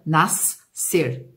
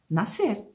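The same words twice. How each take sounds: First: The s and c are sounded separately. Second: The s and c merge into one s sound. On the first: The speaker calls it wrong. "Eu não falo nascer" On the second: The speaker calls it right. "eu falo nascer"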